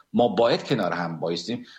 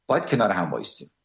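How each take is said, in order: First: Said in the usual way. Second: باید hit first, then the rest rushed out fast and falling; stress on باید. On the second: Shown as a demonstration. Urging fellow countrymen to stand together, stress on باید. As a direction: lean hard on باید and hurry the rest.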